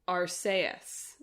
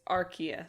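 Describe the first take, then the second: First: The name is said the Japanese way. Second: The name is said the English way. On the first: "Unless you're in Japan, unless it's Arceus there" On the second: "I did remember to look up that it's that it's Arceus"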